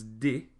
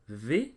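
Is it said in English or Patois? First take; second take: Patois; English. First: It is said with a Patois hard d. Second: It is said with an English th sound.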